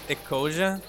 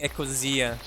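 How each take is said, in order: First: The name is said in an English way. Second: The name is said in a German way. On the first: This is how the speaker personally says it. "I pronounce it" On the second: This is how the creators say it. "I think they say Ecosia. The German creators"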